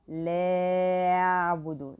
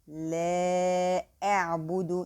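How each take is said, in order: First: The glottal stop before the second word is weak. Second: The glottal stop before the second word is clear. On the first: The speaker calls it wrong. "we don't say لا أعبد. This is wrong" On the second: The speaker calls it right. "make the cutting hamza like this way and pronounce it very clear"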